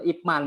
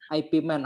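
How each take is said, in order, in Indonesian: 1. Bagian pertama diucapkan sebagai satu suku kata. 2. Bagian pertama dieja sebagai huruf. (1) "Dibacanya adalah Ip Man" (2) "bukan IP Man ya, banyak orang kalau nyebut gitu"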